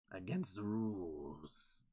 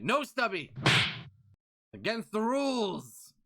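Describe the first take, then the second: First: Lower, softer, slow and deep; slow hushed repeat of the rule; low mutter. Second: Louder, higher, scolding the chat; mock stern rule enforcer; firm loud scolding. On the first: Acted. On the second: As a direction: call out the rule sharply.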